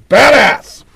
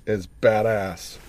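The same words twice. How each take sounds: First: Badass! shouted high and loud; loud exclaim. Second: A low, hushed badass said almost to himself; quiet aside. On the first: Host alone at the mic, shouts his approval of the drummer, loud. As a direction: belt out Badass! like a cheer. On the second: Host alone at the mic, mutters his approval of the drummer, softly. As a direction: murmur badass under the breath, much softer. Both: Real, not acted.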